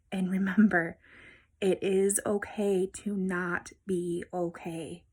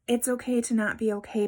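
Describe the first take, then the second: First: Whispered, slow and tender. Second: Said in the usual way. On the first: Real, not acted. Vlogger reassuring viewers at the close, in a slow tender whisper. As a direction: lay it down gently, like a promise.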